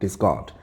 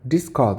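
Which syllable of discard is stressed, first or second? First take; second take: second; first. First: The stress is on the second syllable. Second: The stress is on the first syllable. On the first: It is the verb meaning to throw away. "뒤에 강세가 가면 동사로 쓰인다" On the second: It is the noun meaning a thrown-away thing. "버림이라는 명사로 되고"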